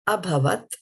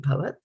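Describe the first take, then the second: First: The word starts with an audible "a" vowel. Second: The word starts directly with the "bh" sound.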